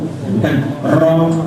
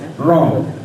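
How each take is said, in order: First: The r is trilled long and heavily. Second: The r is pressed with only a light trill. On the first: The speaker calls it wrong. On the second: The speaker calls it right. "jangan sampai kebanyakan takrirnya"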